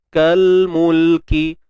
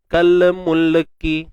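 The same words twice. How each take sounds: First: The L sound closes cleanly without an added vowel. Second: The L sound gets a small extra vowel after it. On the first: The speaker calls it right. "Pastikan dua-dua tu kita tak uh, apa beranakkan bunyi dia" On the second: The speaker calls it wrong. "kalau kita beranak tu dia jadi mungkin macam nilah"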